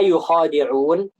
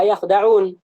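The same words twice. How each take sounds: First: "yukhadi'un" slowly, with a long khaa; slow recited "yukhadi'un", yu-khaa-di-'uun; first qiraah reading. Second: "yakhda'un" slowly, kh closed onto da; no vowel after kh in "yakhda'un"; slow recited "yakhda'un", yakh-da-'uun; second qiraah reading. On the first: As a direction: stretch the aa in "yukhadi'un", then short di. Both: Shown as a demonstration. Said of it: "Ada dua qiraah".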